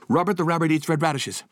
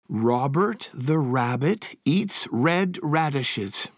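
First: It is said very fast, fastest of all. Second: It is said at a normal, steady speed.

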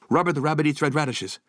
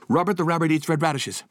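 The two takes are said the same way.

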